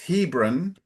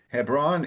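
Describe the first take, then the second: First: The stress is on the first syllable. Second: The stress is on the second syllable. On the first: The speaker calls it right. "it's Hebron ... the emphasis is the beginning" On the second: The speaker calls it wrong. "instead of Hebron"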